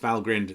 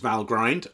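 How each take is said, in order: First: The ending does not sound like grind. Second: The ending sounds like the word grind. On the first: The name comes from a Norse god. The speaker calls it right. "it's Valgrind, some kind of Norse god" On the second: The name comes from 'value grinder'. The speaker calls it wrong. "often mispronounced Valgrind"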